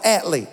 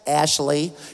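First: The name is said with a 't' sound. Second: The name is said with a 'sh' sound. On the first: This is how the Southern friend said his own name. "He called himself Atley" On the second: This is how others say the name. "He did not call himself Ashley"

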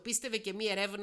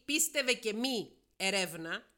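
First: It runs on with no break after mi. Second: There is a break after mi before erevna. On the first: Believe and do not investigate. "άμα το διαβάσεις έτσι, σημαίνει να πιστεύεις και να μην ερευνάς" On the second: Whether you believe or not, investigate. "είτε πιστεύεις είτε όχι να ερευνάς"

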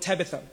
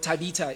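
First: The name is said in a general pronunciation. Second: The name is said in a regional home accent.

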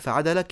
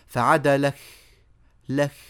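First: The final k is a crisp closed stop. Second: The final k has an exaggerated breathy release. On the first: The speaker calls it right. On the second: The speaker calls it wrong.

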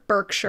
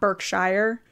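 First: The last syllable sounds like 'sure'. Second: The last syllable sounds like 'shire'. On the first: This is how people there say it. The speaker calls it right. "they'd say it, sure" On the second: This is how people in the U.S. say it. The speaker calls it wrong. "Not Berkshire"

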